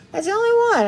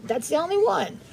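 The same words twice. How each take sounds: First: "only" lifted high and leaned on, much higher than the first take; emphatic repeat. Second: Said in the usual way. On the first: Real, not acted. To her chat, insisting Margarita is her only rolled R, stress on "only". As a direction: push up hard on "only" to insist.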